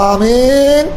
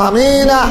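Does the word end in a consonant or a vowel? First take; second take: consonant; vowel. First: The word ends on the consonant n. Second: The word ends with an added a vowel. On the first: "এক রাত হলো আমিন" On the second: "যদি হরকত দাও কি পড়বা? জবর দিবা"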